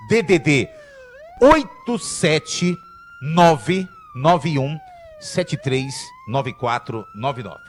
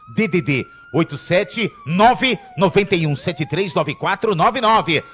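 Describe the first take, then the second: First: The number is read slowly. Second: The number is read quickly.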